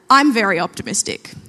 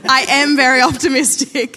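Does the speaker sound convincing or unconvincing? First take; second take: unconvincing; convincing. First: It is said flatly, without conviction. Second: It is said firmly, with conviction. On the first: The speaker calls it wrong. "That didn't sound convincing" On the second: The speaker calls it right. "Let me try it again"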